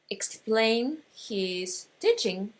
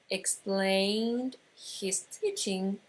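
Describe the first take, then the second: No difference in how they are said.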